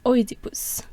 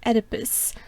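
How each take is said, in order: First: It uses a Greek-style pronunciation. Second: It uses the usual English pronunciation.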